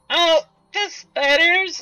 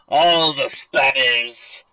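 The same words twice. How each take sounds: First: It is said in a put-on girl voice. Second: It is said in his ordinary natural voice.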